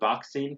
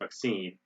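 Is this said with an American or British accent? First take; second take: British; American. First: It is said in a British accent. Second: It is said in an American accent. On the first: "They say" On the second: "in American is"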